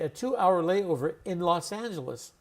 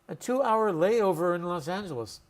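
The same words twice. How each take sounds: First: The word 'in' is pronounced in full. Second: The word 'in' is reduced to 'n'. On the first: The speaker calls it wrong. "We don't say" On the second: The speaker calls it right. "In is always reduced to n"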